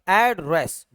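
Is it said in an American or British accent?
American. American accent, the first syllable drawn out.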